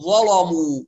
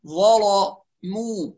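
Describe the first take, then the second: First: Louder "ظلموا" with "ل" and "م" both wrongly dark; heavy laam and meem. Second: Slow "ظلموا" with dark "ل" and thin "مو"; heavy laam, light meem. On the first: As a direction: thicken every consonant of "ظلموا". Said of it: "بيغلظوا اللام والميم". ("ظلموا" بتغليظ اللام والميم) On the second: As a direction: darken the "ل" of "ظلموا", then lighten the "م". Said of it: "نحافظ على ترقيق الميم". ("ظلموا" بتغليظ اللام وترقيق الميم) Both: Shown as a demonstration.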